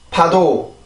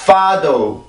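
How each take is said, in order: First: It starts with a puffed p sound. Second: It starts with an f sound. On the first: "한국어 발음을 먼저 해봅니다" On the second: "영어로 발음을 해볼게요"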